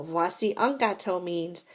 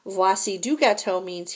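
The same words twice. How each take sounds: First: Un given the weight in Voici un gâteau; stress on un. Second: Du lifted and given the weight in Voici du gâteau; stress on du. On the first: French teacher contrasting articles, stressing un. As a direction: lean on the word un as the article that matters. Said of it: "Here's the entire cake". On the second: French teacher contrasting articles, stressing du. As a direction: lean on the word du as the article that matters. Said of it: "Here's a piece of cake". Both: Shown as a demonstration.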